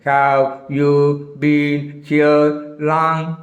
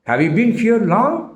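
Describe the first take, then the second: First: The words are said separately, one by one. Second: The words run together like a single word. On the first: The speaker calls it wrong. "அப்படியா? No" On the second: The speaker calls it right. "ஒரே வார்த்தையாக கேட்குறேன்"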